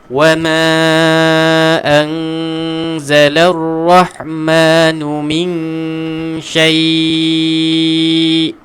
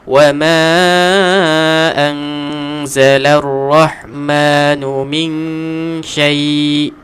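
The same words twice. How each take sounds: First: The final vowel is held for a long time. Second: The final vowel is held only briefly. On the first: "Nak baca enam boleh juga" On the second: "Dua harakat"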